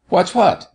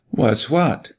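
First: Much higher, pressing question; insistent repeat. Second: Mildly demanding, a little higher; imperative question. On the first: Doctor repeats his question to startled girl, insistent. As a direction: repeat it sharply up high, demanding an answer. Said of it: "repeated the doctor". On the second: Doctor quizzing the girl, imperative. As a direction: put a question that expects an answer. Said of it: "manner that called imperatively". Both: A narrator's reading.

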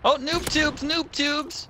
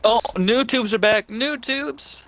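First: Squeaky cartoon repeat; mock high-pitched cheer; silly high voice. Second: Loud excited yell; thrilled game shout. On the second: Real, not acted.

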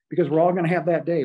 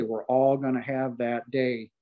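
First: Louder, higher and fast, driving it home; rising urgency on "all"; emphatic declaration. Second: Slower, settling back down, weighing each word; slow solemn repeat. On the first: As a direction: punch out "we're all gonna have that day" as a warning. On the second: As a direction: let "We're all gonna have that day" sink in slowly. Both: Real, not acted. Repeated for emphasis.

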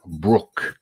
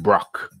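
First: Brook said with the short "oo" of book; Brook pronunciation. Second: Brock said with an open "o" as in rock; Brock pronunciation. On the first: Host unsure of guest's surname, tries Brook pronunciation. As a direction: say Brook to rhyme with look. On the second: Host offers the other surname option, Brock pronunciation. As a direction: say Brock to rhyme with lock. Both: Shown as a demonstration. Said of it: "the correct pronunciation".

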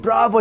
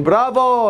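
First: Put-on light Greek-accented bravo; a hint of a Greek dad cheering. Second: Hearty shouted bravo; loud cheer. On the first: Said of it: "Greek accent". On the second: Retold or imitated. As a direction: call it out across the hall. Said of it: "he was going".

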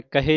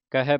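First: ਕਹੇ said as "ka-hay"; ਕਹੇ with closed final vowel, not ai; closed -e ending. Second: ਕਹੈ said as "ka-hai"; ਕਹੈ with open final vowel, not e; open -ai ending. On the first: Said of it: "ਕਹੇ ਨਹੀਂ ਪੜ੍ਹਨਾ". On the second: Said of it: "ਕਹੈ ਪੜ੍ਹਨਾ ਹੈ". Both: Shown as a demonstration.

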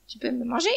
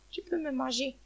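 First: Firm, full-voiced dare; strong defiant voice. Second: Soft, fading surrender; weakened voice. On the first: Hen dares the eagle to eat her, defiant. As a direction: keep the voice up, defying the listener. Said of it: "la poule parlait d'une voix forte". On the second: Hen surrenders to the eagle, faint and resigned. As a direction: let the strength drain out. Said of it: "Puis sa voix faiblit". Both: A narrator's reading.

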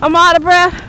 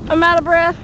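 First: Louder, puffing and winded; gasping it out after pedaling; out of breath. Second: Said in the usual way. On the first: Real, not acted.

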